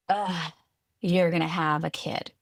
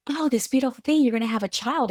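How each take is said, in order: First: A flat, sour Ugh and a disapproving tone; disgusted groan. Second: High, bright-eyed gushing, louder; gushing excitement. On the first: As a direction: sound disappointed with the news. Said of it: "It was this like". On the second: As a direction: gush over the happy news. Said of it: "it was never this like". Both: Retold or imitated.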